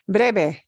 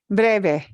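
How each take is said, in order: The two takes are said the same way.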